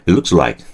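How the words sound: The words run together in one breath. The speaker calls it right. "한 단어처럼 한 단어처럼. 그죠? 한 호흡에"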